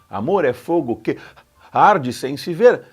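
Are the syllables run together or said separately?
separately. Que and arde are kept apart.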